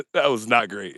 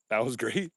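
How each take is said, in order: First: "not" stressed, "great" falling; louder, land firmly on "not" and drop on "great"; firm "not great", tune falling at the end; self-correcting verdict. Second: Rising tune on "great"; questioning. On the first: Correcting his own question about dance. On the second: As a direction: say "great" as a doubtful question, lifting at the end. Questioning his dance, then correcting himself. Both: Real, not acted.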